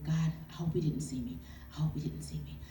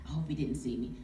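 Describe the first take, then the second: First: Breathless whispered plea to God; whispered prayer. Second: Said in the usual way. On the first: Retold or imitated. Praying at the gas station, a hushed whisper. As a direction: whisper the prayer, hiding at the pump.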